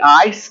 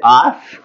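First: The vowel glides as a full diphthong. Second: The vowel is a flat, drawn-out 'ah'. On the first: "they don't say ice" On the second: "people in Southern Oklahoma, they say"

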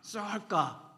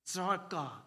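First: The word is said loudly, like crying out. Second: The word is said calmly, without crying out. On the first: The speaker calls it right. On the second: The speaker calls it wrong.

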